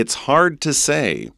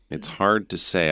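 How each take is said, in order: First: It's hard to say said high, with hard stressed and falling; lifted demo take. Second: Said in the usual way. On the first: Shown as a demonstration. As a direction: raise the voice on hard, then let it drop. (高声示范，重读hard) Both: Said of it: "can we say it in English?".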